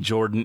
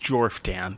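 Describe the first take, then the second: First: The name is said without an f sound. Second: The name is said with an f sound. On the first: This is how the name's owner wants it said. "he wants the P H to be silent" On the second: This follows how the name is spelled. "That's how you spelled it"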